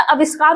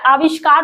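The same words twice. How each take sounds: First: आविष्कार misread with short "a" and s, "a-vis-kaar"; wrong form shown. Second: आविष्कार with long first "aa" and sh, "aa-vish-kaar"; correct form. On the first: Teacher shows students what would be wrong, आविष्कार said as "a-vis-kaar". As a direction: begin आविष्कार on a short "a", plain s. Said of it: "होता तो वो गलत होता है". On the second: Teacher gives students the correct spelling, आविष्कार with "aa-vish". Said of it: "आविष्कार शुद्ध होता है". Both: Shown as a demonstration.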